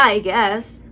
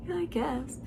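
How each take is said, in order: First: Said in the usual way. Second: Very soft, deflated repeat after a laugh; incredulous mocking echo. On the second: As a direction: echo it under your breath in disbelief. Repeats the husband's words after laughing.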